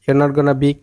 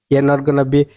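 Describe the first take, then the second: No difference in how they are said.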